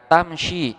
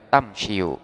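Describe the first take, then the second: First: The word ends with a plain i vowel. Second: The word ends with an added u vowel. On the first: The speaker calls it right. "di sini dibaca tamshi" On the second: The speaker calls it wrong. "tidak boleh dibaca tamshiu"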